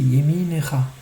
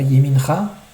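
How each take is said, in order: First: The vowel after the n is pronounced. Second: The vowel after the n is dropped. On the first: The speaker calls it right. "c'est un sheva qui se prononce yeminecha" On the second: The speaker calls it wrong. "c'est pas yemincha"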